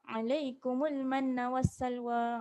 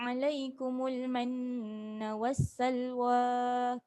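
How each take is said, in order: First: The nasal sound in manna is cut short. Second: The nasal sound in manna is held long. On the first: The speaker calls it wrong. "Jangan baca alaikumul manna wassalwa. tak cukup dengung tu" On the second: The speaker calls it right. "Dua harakat dengung"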